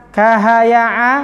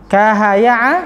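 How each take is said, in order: No difference in how they are said.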